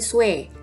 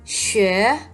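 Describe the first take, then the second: First: The vowel sounds like a plain 'we'. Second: The vowel sounds like a rounded 'ü'. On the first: The speaker calls it wrong. "sering sekali ketika kita baru belajar bunyinya jadi swe, swe gitu ya. Padahal bukan" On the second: The speaker calls it right. "mirip banget sama u umlaut"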